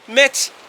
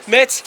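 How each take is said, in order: First: The word ends in a ts sound. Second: The word ends in a ts sound.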